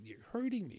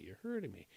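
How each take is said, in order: First: High, mock cry of pain; imitating hollering. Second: Repeated plea fading. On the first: Girlfriend crying out at the nurse, a mild high mock holler. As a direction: pitch the first plea up like a half-hearted yelp. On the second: Retold or imitated. Girlfriend repeating to the nurse, a fading, softer plea. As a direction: let the repeat sag as she gives up. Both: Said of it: "she starts hollering".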